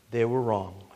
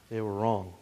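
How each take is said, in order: First: Soft repeat. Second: Hushed verdict. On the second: Preacher to congregation, the sinners' verdict hushed and grave. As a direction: drop low and very soft, almost a whisper. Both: Real, not acted. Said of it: "that they were what?".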